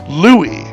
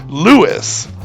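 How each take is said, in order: First: The name is said with a French pronunciation. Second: The name is said with an English pronunciation. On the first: The speaker calls it wrong. "give it a French twist" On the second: The speaker calls it right. "pronounced like it would be in English"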